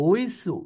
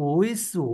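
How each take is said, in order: The two takes are said the same way.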